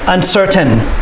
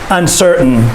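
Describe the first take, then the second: First: The middle consonant is a clear T sound. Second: The middle consonant sounds like a D. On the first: "The correct way" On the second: "The way we say it"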